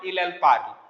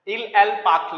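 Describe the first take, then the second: First: The r is a plain English-style r sound. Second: The r is a throaty sound, like kh. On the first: The speaker calls it wrong. "यदि आर को ख नहीं बोलोगे" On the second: The speaker calls it right. "French में आर को ख बोलते हैं"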